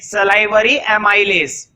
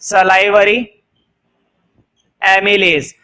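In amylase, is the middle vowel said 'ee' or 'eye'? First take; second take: eye; ee. First: The middle vowel of amylase sounds like 'eye'. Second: The middle vowel of amylase sounds like 'ee'. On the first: "कुछ लोग इसको एमाइलेज भी बोलते हैं" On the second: "मैं तो इसको एमिलेज पढ़ता हूं"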